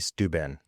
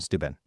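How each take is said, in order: First: The name is drawn out slowly. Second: The name is said quickly and clipped. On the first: "which gives it a longer feel" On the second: "and it's really fast"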